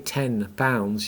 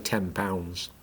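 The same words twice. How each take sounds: First: Each sound is pronounced separately and carefully. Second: The end of ten blends into pounds. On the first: "you don't actually say ten pounds" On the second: "If you say that casually, ... you actually say ten pounds"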